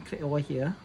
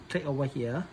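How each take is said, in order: Both takes have the same delivery.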